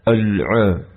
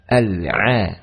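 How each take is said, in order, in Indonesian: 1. Bunyi 'al' di awal terdengar tebal dan berat. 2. Bunyi 'al' di awal terdengar tipis dan ringan. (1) "menebalkan hamzah waslin dan juga huruf lam ... tidak dibaca"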